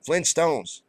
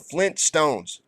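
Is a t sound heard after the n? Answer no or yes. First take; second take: no; yes. First: It is said without a t after the n. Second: It is said with a t after the n. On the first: The speaker calls it wrong. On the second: The speaker calls it right.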